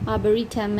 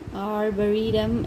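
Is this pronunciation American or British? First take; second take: British; American. First: It is said with a British accent. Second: It is said with an American accent. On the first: "in British" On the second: "in America and R silent"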